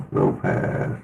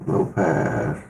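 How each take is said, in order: First: Muffled low-pass filter on the voice. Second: Said in the usual way. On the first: Shown as a demonstration. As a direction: sound like it's through a wall, low pass. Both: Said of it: "Really low pass".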